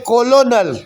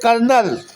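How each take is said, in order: First: It is said with every letter, 'co-lo-nel'. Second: It is said as two syllables, 'kernel'. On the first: This is how the word is written. "लिखते" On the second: This is how the word is actually read. "पढ़ते"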